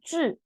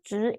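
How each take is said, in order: First: The syllable is said with the fourth tone. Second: The syllable is said with the second tone. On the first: This is the pronunciation not used in Taiwan. "instead of fourth tone 质" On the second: This is the Taiwan pronunciation. "in Taiwan we pronounce second tone 质"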